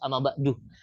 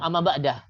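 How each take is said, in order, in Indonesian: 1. Kata terakhir berakhir dengan bunyi u. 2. Kata terakhir berakhir dengan bunyi ah. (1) "tapi yang bagus amma ba'du" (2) "pernah dengar orang bilang amma ba'dah?"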